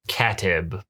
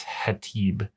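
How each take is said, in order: First: The name begins with a K sound. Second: The name begins with an H sound. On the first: The speaker calls it wrong. "but I don't think it's Katib" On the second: The speaker calls it right. "what I pronounce as Hatib, because that's kind of the Arabic, but the Arabic I think has an H"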